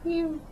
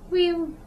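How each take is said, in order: First: It is said at normal volume. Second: It is said loudly.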